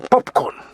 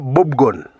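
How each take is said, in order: First: It is said with voiceless p and k sounds. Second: It is said with voiced b and g sounds. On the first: The speaker calls it wrong. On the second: The speaker calls it right.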